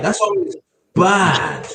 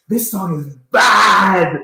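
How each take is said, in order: First: Slow, higher mock Jamaican drawl; imitating the uncle, drawn out; Jamaican accent. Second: Slow, high, loud Jamaican exclamation; drawn-out Jamaican praise, shouted; Jamaican accent. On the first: Echoing the uncle's Jamaican line. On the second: Retold or imitated. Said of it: "in a very thick Jamaican accent".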